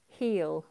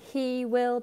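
First: It is said as one contracted syllable. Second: It is said as two full words. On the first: "He will becomes heel" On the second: "He will becomes heel"

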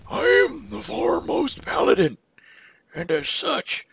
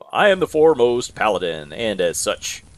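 First: It is said in a put-on old man's voice. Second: It is read in the speaker's own normal voice.

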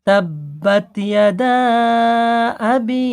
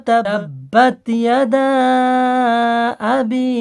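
Both takes have the same delivery.

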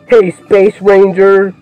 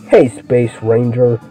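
First: It is said in his own normal voice. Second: It is said in a Buzz Lightyear impression.

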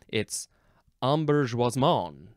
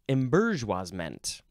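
First: The word is pronounced in a French way. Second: The word is pronounced in an English way.

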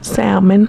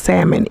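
First: The L sound is pronounced. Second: The L sound is silent. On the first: "I put the L in mine" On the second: "I know it's salmon"

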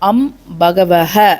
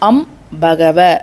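First: The last word ends with a breathy h sound. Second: The last word ends on a plain vowel.

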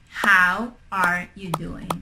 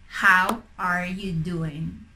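The two takes are said the same way.

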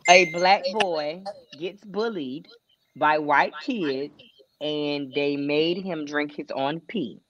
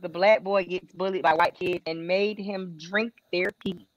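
First: It is said slowly. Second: It is said fast.

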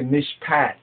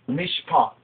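First: The word is said in an English-style way. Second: The word is said in a Hebrew-style way. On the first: The speaker calls it wrong. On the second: The speaker calls it right.

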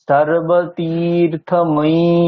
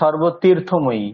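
First: The second syllable's vowel is drawn out long. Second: The second syllable's vowel is short. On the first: The speaker calls it right. "তীরটা টানতে হবে।" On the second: The speaker calls it wrong. "আমি কিন্তু বলিনি সর্বতীর্থময়ী"

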